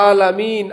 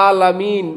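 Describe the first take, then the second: Both takes have the same delivery.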